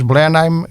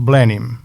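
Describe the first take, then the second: First: The name is pronounced with German sounds. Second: The name is pronounced with English sounds. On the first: "que nós pronunciamos a, a alemã" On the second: "em inglês ... é dito"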